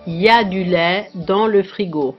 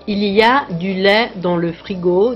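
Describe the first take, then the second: First: The word il is dropped completely. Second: The word il is pronounced in full. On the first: This is casual spoken speech. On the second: This is standard speech.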